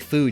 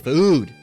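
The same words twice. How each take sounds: First: The vowel is said plainly. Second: The vowel is heavily emphasized. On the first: The speaker calls it right. "you like you'd say food" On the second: The speaker calls it wrong. "If you put emphasis on the O"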